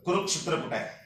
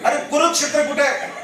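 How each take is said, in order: First: Understated, lower-pitched quiz question; low, quiet question. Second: Higher, impatient repeat of the question; mock irritation. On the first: Retold or imitated. Interviewer puts his first question to the candidate, quietly. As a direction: imitate an interviewer asking softly. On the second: Angry interviewer repeats his question to a staring candidate, mock irritated. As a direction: imitate an annoyed interviewer, pitched up. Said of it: "गुस्से से देख रहा है".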